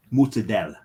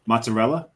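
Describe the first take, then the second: First: Mozzarella clipped to moot-suh-DEL. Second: Mozzarella said the standard way, mot-suh-REL-uh. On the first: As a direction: drop the ending of mozzarella, Jersey Italian style. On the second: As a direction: say mozzarella in full, with the r. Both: Shown as a demonstration. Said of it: "entirely said wrong here".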